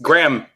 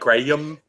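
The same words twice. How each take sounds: First: The name is said as one syllable. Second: The name is stretched into two syllables. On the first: The speaker calls it right. "Only one syllable. It's just Graham" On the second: The speaker calls it wrong. "People are like Graham"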